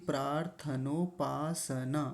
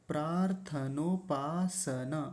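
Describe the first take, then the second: Both takes have the same delivery.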